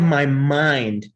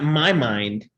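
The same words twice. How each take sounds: First: The word 'my' is unstressed. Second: The voice goes up on 'my'. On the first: The focus is on the place inside. The speaker calls it right. "inside my mind" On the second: It contrasts whose mind it is. The speaker calls it wrong. "not my mind"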